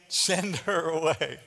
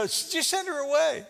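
First: Slow, dry "Send her away"; dismissive disciples. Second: "Just send her away" pitched higher, brushed off; impatient disciples. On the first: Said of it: "his disciples urged him". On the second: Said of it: "They go". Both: Retold or imitated.

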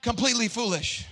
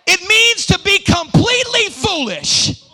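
First: Soft, understated echo; hushed restatement; quiet repeat. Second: High, loud declaration that drops at the end; loud, high-pitched pulpit cry; emphatic preacher's shout. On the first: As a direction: let it drop softly after the shout. Repeats it quietly after shout. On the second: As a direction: holler it out to the congregation. Shouts climax of definition. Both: Real, not acted.

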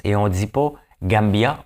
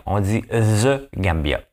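First: "Gambia" with no "the", said slowly; the version to avoid, "Gambia"; slow "Gambia" with no article; wrong form. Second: "the Gambia" with "the" stressed, very slowly; slow, deliberate "the Gambia"; right form. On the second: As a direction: lean on "the" in "the Gambia". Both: Shown as a demonstration.

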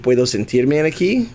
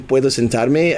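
First: "sentirme" with an IR in the middle; mistaken sentirme. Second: "sentarme" with an AR in the middle; correct sentarme. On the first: Student botching the test request, "sentirme" with IR for AR. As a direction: say "sentirme" with an ee before the m. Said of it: "I said". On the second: Student giving the intended Spanish verb, "sentarme" with AR. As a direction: say "sentarme" with an open ah before the m. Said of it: "instead of saying". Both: Shown as a demonstration.

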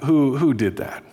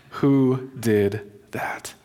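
First: Said in the usual way. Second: Each word of WHO DID THAT set apart, nearly whispered; slow, hushed question. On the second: Retold or imitated. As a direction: ask it very slowly, under the breath. Retold question, repeated very slowly.

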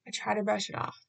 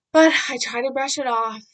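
First: Said in the usual way. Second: Loud, forceful "brush it off"; bursting out with strong emphasis; emphatic brush-off. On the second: Real, not acted. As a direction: push out "I try to brush it off" much louder. First take of repeated phrase.

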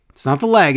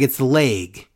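First: Said in the usual way. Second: "leg" with a long AY vowel; mimicked odd vowel, "leg" as "layg". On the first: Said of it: "it's the leg". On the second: Shown as a demonstration. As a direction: rhyme "leg" with "vague".

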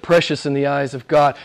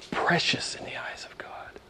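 First: Said in the usual way. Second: Breath-only, hushed repeat; reverent whisper. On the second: Real, not acted. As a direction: whisper it in awe. Awed repeat of the verse.

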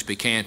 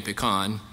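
First: Pecan with "can" as in tin can; regional pronunciation. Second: Pecan with an "ah" in the last syllable; regional pronunciation. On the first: Preacher comparing regional pronunciations, pecan as "pee-CAN". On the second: Preacher comparing regional pronunciations, pecan as "pi-KAHN". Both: Shown as a demonstration. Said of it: "depending on the part of the country".

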